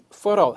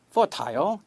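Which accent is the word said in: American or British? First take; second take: American; British. First: It is said in an American accent. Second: It is said in a British accent. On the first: "미국 사람들은 대부분이 fertile 합니다" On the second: "영국 애들은 거의 대부분이 fertile 그렇게 발음해요"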